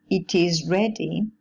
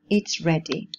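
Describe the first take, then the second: First: The verb is said as a separate full word. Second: The verb is reduced to a hissing sound.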